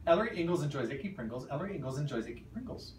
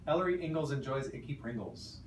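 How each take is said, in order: First: Quick timed run; fast. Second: Careful practice read; slow trial read. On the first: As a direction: rattle it off fast. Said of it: "I will also do Adele's two times". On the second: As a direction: say it out loud slowly. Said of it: "try it out loud first". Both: Shown as a demonstration.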